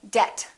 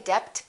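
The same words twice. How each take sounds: First: The B sound is silent. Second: The B sound is pronounced. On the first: The speaker calls it right. "the silent B" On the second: The speaker calls it wrong. "Don't say debt"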